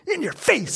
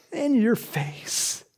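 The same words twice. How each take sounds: First: High gloating jab; in your face, pitched high; high taunt. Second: Slow, drawn-out savoring; slow repeat. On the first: Pretend. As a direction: fling it at Satan, high and cheeky. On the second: Shown as a demonstration. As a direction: stretch each word out slowly.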